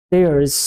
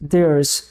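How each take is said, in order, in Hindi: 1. यह एक छोटे अक्षर में संकुचित हो जाता है। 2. यह एक छोटे अक्षर में संकुचित हो जाता है।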